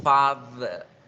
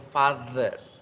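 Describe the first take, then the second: The two takes are said the same way.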